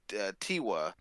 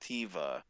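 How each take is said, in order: First: The middle consonant is a W sound. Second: The middle consonant is a V sound. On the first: The speaker calls it wrong. "we're saying Tiwa" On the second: The speaker calls it right. "the V is actually the proper way to pronounce it"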